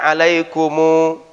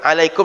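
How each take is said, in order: First: The word ends with an added u vowel. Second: The word ends on the consonant m. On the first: This is another accepted reading tradition. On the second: This is the usual reading.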